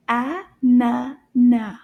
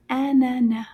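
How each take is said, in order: First: "A-na-na" very slowly, louder, a gap after each syllable. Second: Said in the usual way. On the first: Shown as a demonstration. Teacher has children repeat after her, "A-na-na" syllable by syllable. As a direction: split "A-na-na" into three firm, separate beats. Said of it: "repeat after me". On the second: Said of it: "So we pronounce anana".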